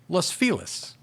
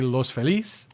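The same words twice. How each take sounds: First: The name is pronounced with English-style sounds. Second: The name is pronounced with Spanish-style sounds. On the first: This is the local name of the area. "they are not pronounced the way that a, a, a person speaking Spanish would correctly pronounce those names" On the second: This is how the words are said in Spanish. "they would say Los Feliz"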